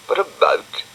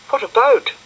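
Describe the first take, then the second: First: Dog's voice, echoing. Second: High bright question; high girlish curious question; Florence asking. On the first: Acted. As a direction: repeat it like grumpy Dougal. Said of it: "said Dougal". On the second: A narrator's reading. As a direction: ask it high and eager.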